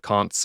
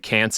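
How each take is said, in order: First: The word is said with a British vowel. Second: The word is said with an American vowel. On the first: This is how it is said where the others live. The speaker calls it right. "instead of con'ts" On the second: This is how the speaker actually says it. The speaker calls it wrong. "I'm sure there's a few can'ts"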